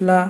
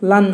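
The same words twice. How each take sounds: First: "লা" as an open syllable ending on aa; teacher's demo of "লা", ending on the vowel; short-vowel demo. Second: "লান" closed with an added n; teacher's demo of "লান", aa plus n; tanween demo. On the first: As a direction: say "লা" with no n at the end. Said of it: "আমরা এখন হরকতের উচ্চারণ করব". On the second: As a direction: end "লান" on a clear n sound. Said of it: "ল এর পাশে দন্তন বেড়ে যাবে". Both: Shown as a demonstration.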